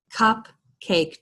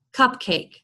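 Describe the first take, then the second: First: "Cupcake" split in two with a clear gap; syllable by syllable. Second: Said in the usual way. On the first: Shown as a demonstration. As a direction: separate the two beats of "Cupcake". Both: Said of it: "two syllables".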